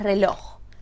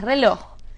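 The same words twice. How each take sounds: First: The stress is on the first syllable. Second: The stress is on the last syllable. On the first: The speaker calls it wrong. "¿Es reloj o es reloj?" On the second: The speaker calls it right. "Es reloj. ... Aguda"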